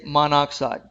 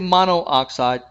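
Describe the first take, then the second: First: The middle vowel is said only once. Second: The middle vowel is said twice, mono-oxide. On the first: The speaker calls it right. "but just say monoxide" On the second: The speaker calls it wrong. "Don't repeat the vowel, by the way. The, don't say monoxide"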